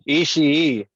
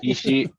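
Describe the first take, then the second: First: The final i sound is drawn out long. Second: The final i sound is short. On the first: The speaker calls it right. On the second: The speaker calls it wrong.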